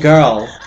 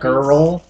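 First: The word is said in an English accent. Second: The word is said in an American accent. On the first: "She's English. That's why she's saying girl" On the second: "Instead of girl"

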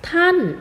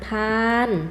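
First: The syllable is said with a falling tone. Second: The syllable is said on a level mid tone. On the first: "เจอคำว่าท่านที่นิ้วกลางเลยเป็นเสียงโท" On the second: "ถ้าไม่มีรูปจะเสียงสามัญ"

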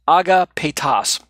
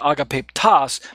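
First: No p sound comes before the t. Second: An extra p sound comes before the t. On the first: The speaker calls it right. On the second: The speaker calls it wrong.

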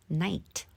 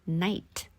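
Both takes have the same delivery.

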